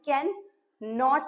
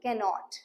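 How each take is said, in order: First: It is said as two separate words. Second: It is said as one joined word. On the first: The speaker calls it wrong. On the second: The speaker calls it right.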